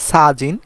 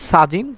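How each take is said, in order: No difference in how they are said.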